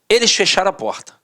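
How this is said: It is read in a firm, flat way.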